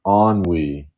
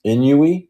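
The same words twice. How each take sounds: First: "Ennui" as AHN-wee, two syllables, settled; corrected pronunciation. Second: "Inui" as in-YOO-ee, rising into a question; unsure pronunciation. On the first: Host copying the correction of a character's name, "Ennui" as AHN-wee. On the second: Host asking how to pronounce a character's name, "Inui" as unsure in-YOO-ee. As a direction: sound out "Inui" with a y-glide, voice lifting high. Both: Real, not acted. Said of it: "How do I pronounce that".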